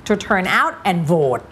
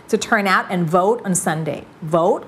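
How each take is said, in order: First: Slow English with a Thai falling tone on "vote"; Thai-style reading. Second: Slow model reading, "vote" without its Thai tone; changed tone. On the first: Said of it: "อย่าอ่านแบบไทย เช่น". (อ่าน "vote" แบบสำเนียงไทย) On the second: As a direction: shift the tone of "vote" away from Thai "โหวต". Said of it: "คือเปลี่ยนเสียงละ". (เปลี่ยนเสียง "vote" ไม่ให้เป็นโหวต) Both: Shown as a demonstration.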